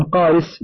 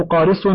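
First: قارس ending in a light, plain س; with sin. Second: قارص ending in a heavy, emphatic ص; with sad. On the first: Reader describing a cold day, قارس with plain sin. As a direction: say قارس with a thin final s. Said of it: "بالسين". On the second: Reader describing sour milk, قارص with emphatic sad. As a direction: say قارص with a dark final sad. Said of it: "بالصاد". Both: Shown as a demonstration.

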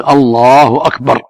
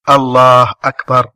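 First: الله أكبر said slowly, lam of الله lengthened, باء of أكبر short; correct Allahu akbar. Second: Mock commoner's stretched الله أكبر, long drawn vowels; imitating people who drag out الله أكبر; drawn-out Allahu akbar. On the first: Shown as a demonstration. Correcting the questioner, model الله أكبر. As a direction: show the right الله أكبر, long lam only. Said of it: "الواجب أن يقول". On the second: Imitating a worshipper to the host, drawn-out الله أكبر. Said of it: "من العوام من يمد".

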